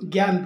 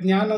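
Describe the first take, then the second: First: The word begins with a g-y sound. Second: The word begins with a j-like sound. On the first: This is the Hindi way of saying it. "ಹಿಂದಿಯಲ್ಲಿ ಇದು ಗ್ಯಾನ್ ಬೇಕು" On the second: This is the Kannada way of saying it. "ಕನ್ನಡದಲ್ಲಿ ಜ್ಞಾ ಅಂತೀವಿ"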